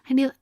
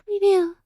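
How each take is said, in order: First: It is said in the speaker's normal voice. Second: It is said in Akane's character voice.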